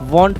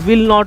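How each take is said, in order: First: It is said as one short contracted word. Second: It is said as two separate full words. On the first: "वॉन्ट पढ़ेंगे" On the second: "विल नॉट को हम वॉन्ट पढ़ेंगे"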